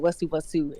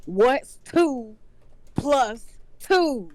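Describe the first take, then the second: First: Said in the usual way. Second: Higher, louder, drawn-out repeat. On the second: Retold or imitated. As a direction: say it again, louder and impatient. Parents repeating the question louder.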